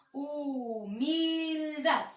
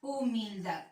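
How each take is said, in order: First: Humildad very slow, each syllable drawn out. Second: Said in the usual way. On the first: Shown as a demonstration. Teacher to pupils, slowly sounding out the word. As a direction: stretch out hu-mil-dad slowly. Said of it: "sílabas átonas son aquellas que tienen intensidad tonal". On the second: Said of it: "La palabra humildad".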